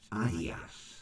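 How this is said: It is said the British way. "It's Adidas"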